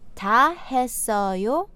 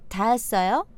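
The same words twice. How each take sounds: First: It is said slowly. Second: It is said at natural speed.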